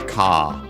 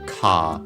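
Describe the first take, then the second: The two takes are said the same way.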